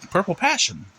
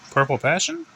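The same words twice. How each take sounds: First: Lightly voiced little boy, high pitch falling at the end; boy's answer. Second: "Purple passion" high, rising into a question; questioning repeat. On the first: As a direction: say "Purple passion" high, as a settled answer. Child answers teacher, falling. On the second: Acted. Child repeats, unsure.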